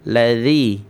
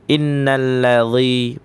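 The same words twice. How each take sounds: First: Ladzi with a light thin dh; correct light reading. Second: Innalladzi with a thick emphatic dh; heavy wrong reading. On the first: Teacher showing the correct light ladzi. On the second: Teacher imitating how people misread it. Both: Shown as a demonstration. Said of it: "padahal ladzi".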